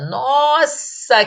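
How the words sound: It is drawn out and sounds delighted. The speaker feels admiration and joy. "revela admiração, alegria e é pronunciada de forma mais prolongada"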